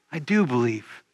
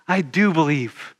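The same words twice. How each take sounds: First: Soft, low, hushed repeat; a quiet, reverent echo of the confession. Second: Said in the usual way. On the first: Shown as a demonstration. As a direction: let it sink in, almost to yourself. Repeating Martha's confession, softer.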